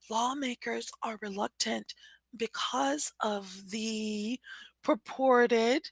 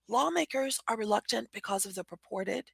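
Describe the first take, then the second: First: The phrase is read slowly. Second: The phrase is read quickly. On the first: "when I read slowly, my inclination or my feeling is" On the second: "When I read more quickly, it's easy to say"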